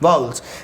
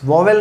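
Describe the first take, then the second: First: The word is said as 'vow-ul' with a reduced ending. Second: The word is said as 'vo-vel' with a clear 'e'. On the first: The speaker calls it right. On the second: The speaker calls it wrong. "वॉवेल नहीं है ये"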